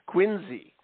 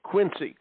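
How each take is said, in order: First: The middle consonant is a Z sound. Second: The middle consonant is an S sound. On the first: The speaker is from the area. "you pronounce that Quincy with a Z sound" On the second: The speaker is not from the area. "with a C sound"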